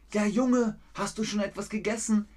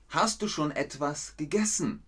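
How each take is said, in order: First: Higher, quicker, fussing grandma. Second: Said in the usual way. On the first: Acted. Grandma asks her grandson whether he has eaten, higher fussing voice. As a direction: play a caring grandma checking on the boy. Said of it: "Nein, Oma". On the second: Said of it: "plain example question".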